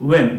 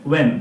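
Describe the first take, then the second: Both takes have the same delivery.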